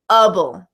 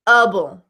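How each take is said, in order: The two takes are said the same way.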